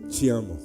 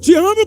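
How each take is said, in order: First: It is said in a gentle, tender tone. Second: It is said in a harsh, irritated tone. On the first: "Uma coisa, gente, é você dizer assim" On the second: "Outra coisa é, ... O tom muda o sentido da frase"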